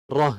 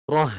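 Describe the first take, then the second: Both takes have the same delivery.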